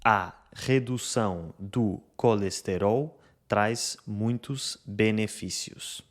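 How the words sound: Unstressed vowels are fully pronounced, even syllable timing. "esta frase lê-se assim no Brasil"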